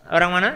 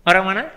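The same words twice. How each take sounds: The two takes are said the same way.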